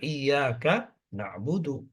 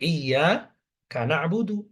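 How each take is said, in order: First: The 'ka' stays with the first word. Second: The 'ka' is joined to the second word. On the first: The two words keep their proper boundary. The speaker calls it right. "yang benar" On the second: The second word seems to begin with 'kana'. The speaker calls it wrong.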